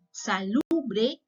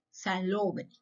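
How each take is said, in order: First: Salubre said with a clear, open u in the middle; Salubre, the u sound set apart. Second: Salobre said with a round o in the middle, falling softly; salobre, the o sound set apart; clear O in salobre. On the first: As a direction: lean on the u of Salubre, rising at the end. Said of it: "La vocal U". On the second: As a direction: lean on the o of salobre, dropping away. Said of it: "por la vocal O". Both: Shown as a demonstration.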